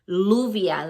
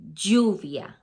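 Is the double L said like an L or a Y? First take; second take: L; Y. First: The double L sounds like an English L. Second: The double L sounds like an English Y. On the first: The speaker calls it wrong. "You don't say um, lluvia" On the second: The speaker calls it right. "the double L is always gonna sound like a Y"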